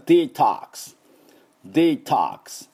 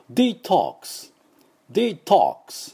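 First: American "デトックス" as dee-TAHKS, open O; higher, deliberate American demo of detox; American English accent. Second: British "デトックス" as dee-TOKS, rounded O; higher, slow British demo of detox; British English accent. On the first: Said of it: "アメリカ人は". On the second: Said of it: "多分イギリス人だと". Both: Shown as a demonstration.

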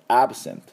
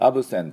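First: "absent" cut off on the t with no vowel after it; stop on the t. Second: "absent" said wrongly as "absento", with an o added after the t; the mistake to avoid: "absent" plus an o; the wrong "absento" ending; wrong vowel ending. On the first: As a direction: end "absent" on a clipped t. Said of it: "最後、tで止めましょう". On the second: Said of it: "とをつけないように". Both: Shown as a demonstration.

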